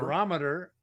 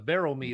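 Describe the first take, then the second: First: It is said in a standard pronunciation. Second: It is said in an Indianapolis regional pronunciation.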